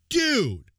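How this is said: It sounds angry.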